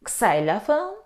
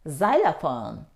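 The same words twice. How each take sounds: First: It begins with the letter name of X. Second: It begins without the letter name of X. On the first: The speaker calls it wrong. "Do you say xylophone? ... No" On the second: The speaker calls it right. "The letter X isn't pronounced in these words. We say xylophone"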